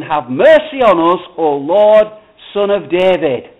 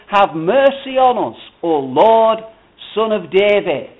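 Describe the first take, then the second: First: Loud, forceful plea; crying out more. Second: Mildly raised, emphatic plea; crying out. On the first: Blind men refusing to be hushed, crying out loudly. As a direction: cry out all the more, loudly. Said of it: "they cried out all the more". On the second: Blind men calling to the passing Lord, crying out. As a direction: cry out with a little extra volume. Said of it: "they cried out". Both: A narrator's reading.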